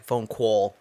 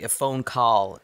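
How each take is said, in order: First: "call" rounded into "cole"; imitated fake accent. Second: Said in the usual way. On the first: Co-host showing how actor botched "call", imitating him. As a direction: say "Phone call" with call bent toward cole. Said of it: "but it's like". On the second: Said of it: "'Cause he was like".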